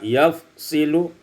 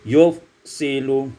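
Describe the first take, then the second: First: The first vowel is a. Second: The first vowel is u.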